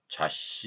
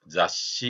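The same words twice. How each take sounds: First: The first syllable has a Korean-like consonant sound. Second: The first syllable has the Japanese consonant sound. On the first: The speaker calls it wrong. "되게 자씨 이렇게 발음하는 경우도 있죠" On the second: The speaker calls it right. "이렇게 발음해야 되는데"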